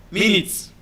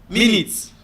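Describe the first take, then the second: The two takes are said the same way.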